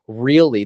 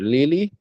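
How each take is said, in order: First: The word is said with an R sound. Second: The word is said with an L sound. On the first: "instead of saying really" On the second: "the L will stand in for the R"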